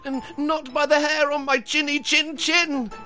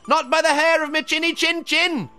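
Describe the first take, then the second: First: It is said fearfully, with a stammer. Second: It is said boldly and confidently.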